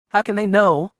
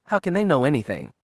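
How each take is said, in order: First: Much higher and louder, disbelieving; stunned cry of disbelief; shocked outburst. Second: Said in the usual way. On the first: A narrator's reading. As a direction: burst out in alarmed disbelief.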